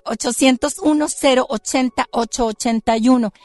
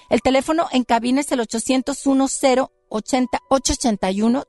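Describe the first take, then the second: First: Gravelly gargoyle growl, louder. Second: Said in the usual way. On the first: Shown as a demonstration. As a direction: grind out the numbers like stone. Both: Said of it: "con mi voz de gárgola".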